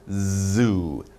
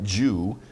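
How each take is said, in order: First: The word begins with a buzzing z sound. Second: The word begins with a j sound. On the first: The speaker calls it right. "z. You get some vibration" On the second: The speaker calls it wrong.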